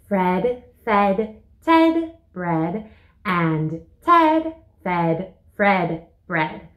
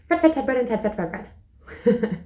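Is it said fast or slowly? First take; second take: slowly; fast. First: It is said slowly. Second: It is said fast.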